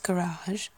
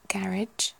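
First: "garage" stressed on the second syllable, ga-RAHZH; American pronunciation. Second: "garage" with first-syllable stress, rhyming with "carriage"; British pronunciation. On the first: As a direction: say "garage" the American way, long final ah. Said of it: "particularly in the States". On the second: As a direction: say "garage" the British way, GARR-idge. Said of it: "whereas we'd say garage". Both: Shown as a demonstration.

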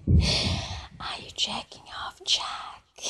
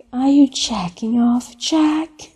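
First: Very soft, fully whispered question; teasing whisper. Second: Said in the usual way. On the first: Acted. Caller privately teasing Jack on the phone, whispering. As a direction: drop right down to a whisper.

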